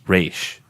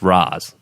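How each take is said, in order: First: The name is said the Hebrew way. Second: The name is said the Arabic way. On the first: The name is treated as derived from Hebrew. "if you go with the Hebrew dialect, ... then it's pronounced Raish" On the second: The name is treated as derived from Arabic. "But if you go with the Arabic, ... then it's Raz"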